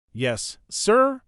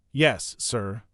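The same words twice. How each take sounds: First: "Yes, sir?" lifted high at the end, asking; unsure reply, rising on "sir"; puzzled question. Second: Said in the usual way. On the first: Acted. Bud unsure, answering as question.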